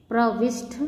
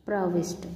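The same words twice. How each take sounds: First: प्रविष्ट with aspirated th ending; mispronounced. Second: Said in the usual way. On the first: Shown as a demonstration. Teacher showing students an error, प्रविष्ट mispronounced. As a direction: say प्रविष्ट as "pravishth". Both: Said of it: "ष्ट के स्थान पर".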